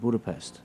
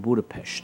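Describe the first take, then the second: First: It is pronounced the usual English way. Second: It is pronounced in a Hungarian-style way.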